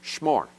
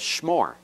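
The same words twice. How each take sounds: Both takes have the same delivery.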